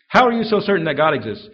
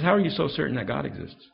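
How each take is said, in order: First: Louder, pressing the question hard; loud challenging question. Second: Said in the usual way. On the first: Retold or imitated. Preacher retelling the skeptic's dinner challenge, loud and pressing. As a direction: throw the skeptic's challenge back loudly.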